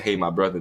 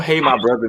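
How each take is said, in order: First: Said in the usual way. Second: Louder, higher mock familiar greeting; put-on chummy hail; code-switching customer. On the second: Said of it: "people do code switch".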